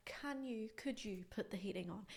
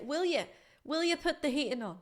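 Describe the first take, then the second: First: Soft, nicely proper request; polite and proper. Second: Higher-pitched, casual Irish request; Irish "will you". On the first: Teacher models the proper heating request, nice and polite. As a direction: ask very softly and politely. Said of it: "we're being nice, polite, and, and proper". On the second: Irish speaker asks for the heating, casual Irish. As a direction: ask it with an Irish lilt. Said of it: "because I'm Irish, I'll say". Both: Shown as a demonstration.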